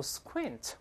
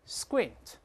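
First: Squint with a puff of air on the k; wrong aspirated k. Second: Squint with unaspirated k, close to "sgwint"; correct soft k. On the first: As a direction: say squint as "s-khwint", the k left hard and breathy. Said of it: "首先注意不要读". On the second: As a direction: say squint with the k softened towards g after s. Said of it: "这个k轻轻发成个这个声音". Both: Shown as a demonstration.

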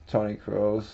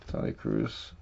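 First: Said in the usual way. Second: Softer, breathy under-the-breath repeat; whispered repeat. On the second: Real, not acted. Repeating a card name to himself, whispered. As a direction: murmur the name to yourself.

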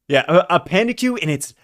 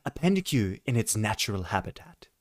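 First: Said in the usual way. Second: Softer, hushed wildlife narrator; nature documentary narrator. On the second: Retold or imitated. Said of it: "National Geographic going on".

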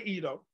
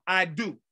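First: "ido" as one Greek word, softly; alternative pronunciation. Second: "I do" like the two English words; alternative pronunciation. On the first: Preacher offering one way to say Greek "ido", alternative pronunciation. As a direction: say "ido" low and quick, unlike "I do". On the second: Preacher offering the other Greek reading "I do", alternative pronunciation. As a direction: say "I do" as eye-doo. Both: Shown as a demonstration. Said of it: "You can say".

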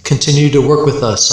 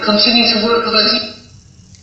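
First: Said in the usual way. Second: High, distant voice through radio static; thin crackly spirit box voice; static entity. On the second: Retold or imitated. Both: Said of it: "I heard that".

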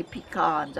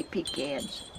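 First: "pecans" said pee-KAHNS, with the second syllable like "con"; other people's pronunciation. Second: "pecans" said pee-CANS, with "can" as in tin can; her own pronunciation. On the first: Quoting how some people say the nut, pee-KAHNS. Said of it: "Some people say pecans". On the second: Showing viewers how she was raised to say it, pee-CANS. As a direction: say "pecans" as pee-CANS, stress on the second syllable. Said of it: "I say pecans". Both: Shown as a demonstration.

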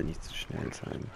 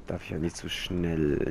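First: Whispered mutter. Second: Said in the usual way. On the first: Real, not acted. Gamer reminding himself not to rush, whispered mutter. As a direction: whisper it slowly under the breath. Player repeats phrase softer.

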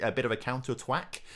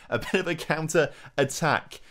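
First: Said in the usual way. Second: Rising excited call. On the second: Real, not acted. Nervous manager watching the counter, rising excited call. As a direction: get more worked up on each repeat. Building excited repeat of phrase.

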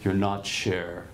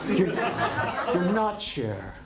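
First: Slow, low and kindly; earnest, gentle warning. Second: Very slow, laughing, patronizing; drawn out like a patronizing do-gooder; mock condescending. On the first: Retold or imitated. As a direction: say it gently, slowly, like a caring teacher. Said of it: "He's not mocking".

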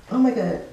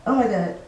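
No difference in how they are said.

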